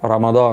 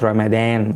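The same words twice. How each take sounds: First: The word is pronounced with Arabic sounds. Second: The word is pronounced with English sounds. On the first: The speaker calls it right. "we say it in Arabic" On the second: The speaker calls it wrong. "not Ramadan"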